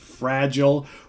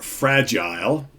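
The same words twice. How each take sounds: First: It is pronounced the non-British way. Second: It is pronounced the British way.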